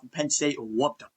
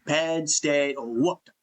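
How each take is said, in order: First: Said in the usual way. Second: "Penn State whooped them" said slowly, every word leaned on; the slow, deliberate repeat that settles the argument; slow emphatic repeat. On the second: Real, not acted. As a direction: drag it out to drive the point home.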